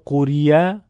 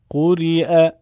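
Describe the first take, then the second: First: A y sound comes before the last vowel. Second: A glottal stop comes before the last vowel. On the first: The speaker calls it wrong. "اگه کسی بخونه قوریه غلط هست" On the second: The speaker calls it right. "یا دیگه خونده نمیشه"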